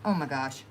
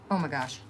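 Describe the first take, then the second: No difference in how they are said.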